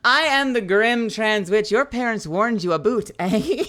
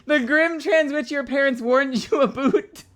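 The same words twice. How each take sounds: First: Higher, louder proclamation, mock grand; grand villain announcement. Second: High, loud, laughing quote of her own line; laughing through it. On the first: Streamer hamming up her witch title for the chat. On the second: Real, not acted. Streamer laughing at her own signed print line. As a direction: giggle the words out loud. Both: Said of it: "it kinda looks like I said".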